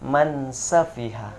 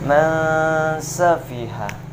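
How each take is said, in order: First: The n is pronounced clearly without nasal hum. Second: The n is hidden in a long nasal hum. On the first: The speaker calls it wrong. "dijelaskan nunnya sama sinnya tidak dan, dan tidak didengungkan" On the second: The speaker calls it right. "yang betul"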